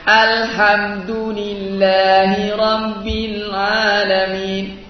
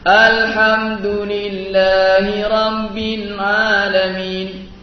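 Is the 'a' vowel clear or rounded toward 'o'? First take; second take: clear; rounded. First: The 'a' vowel is clear and open. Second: The 'a' vowel is rounded toward 'o'. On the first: The speaker calls it right. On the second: The speaker calls it wrong.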